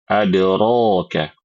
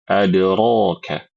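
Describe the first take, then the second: First: The vowel after r is an open a. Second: The vowel after r is an open a.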